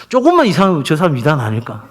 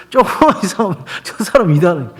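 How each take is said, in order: First: Said in the usual way. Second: Amused repeat. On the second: Retold or imitated. Pastor imitating his suspicious wife for laughs, amused repeat. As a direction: quote it through leftover laughter.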